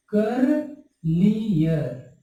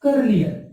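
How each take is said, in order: First: करलियर drawn out slowly, each syllable held; slow modelled word. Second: Said in the usual way. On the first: Shown as a demonstration. Teacher to students, modelling करलियर slowly and drawn out. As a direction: spell out करलियर by sound, very slowly. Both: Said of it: "आईईआर लगाना होगा".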